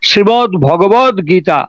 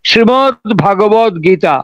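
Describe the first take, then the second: First: The middle word begins with a short 'bho' sound. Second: The middle word begins with a long 'bhaa' sound. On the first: The speaker calls it right. "কথাটা ভুল" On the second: The speaker calls it wrong. "আমরা অনেকেই উচ্চারণ করি আমাদের অজ্ঞতাবশত"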